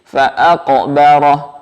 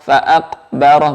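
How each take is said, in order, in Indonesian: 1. Bunyi q dilepas dengan pantulan yang terdengar. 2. Bunyi q ditahan, tanpa pantulan. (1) "Qafnya mantul" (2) "Jangan tidak berbunyi"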